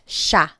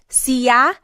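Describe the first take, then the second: First: The word is pronounced in its everyday spoken form. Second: The word is pronounced exactly as spelled. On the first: The speaker calls it right. "it's usually pronounced" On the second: The speaker calls it wrong. "it looks like it should be pronounced"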